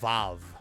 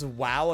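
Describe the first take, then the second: First: The word begins with a V sound. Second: The word begins with a W sound.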